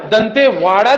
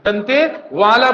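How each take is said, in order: First: दंतेवाड़ा said with retroflex ड़ as the wrong form; not दंतेवाड़ा. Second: दंतेवाला slowly, with a clear ल in place of ड़. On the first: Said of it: "दंतेवाड़ा नहीं बोलना है". (गलत उच्चारण दंतेवाड़ा) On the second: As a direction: stretch out दंतेवाला with ल. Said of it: "दंतेवाला बोलना है". (दंतेवाला, ल के साथ धीरे) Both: Shown as a demonstration.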